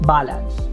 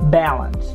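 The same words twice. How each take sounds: First: The first vowel is not an American A. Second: The first vowel is an American A. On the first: The speaker calls it wrong. "This one is not balance" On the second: The speaker calls it right. "American A"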